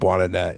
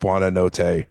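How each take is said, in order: First: The name ends clipped, with a short final syllable. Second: The name ends fully, with both final syllables sounded. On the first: The speaker calls it wrong. "I'm never gonna say it right, ... but I call him Buonanet" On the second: The speaker calls it right. "and it's like Buonanotte"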